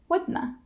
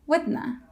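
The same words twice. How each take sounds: First: It is squeezed to one word ending in schwa. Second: The same.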